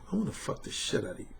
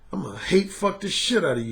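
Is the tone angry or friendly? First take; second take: friendly; angry. First: It is said in a friendly, non-angry tone. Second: It is said with angry undertones.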